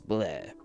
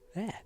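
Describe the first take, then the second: First: It is said in a deep, manly voice. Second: It is said in an ordinary speaking voice.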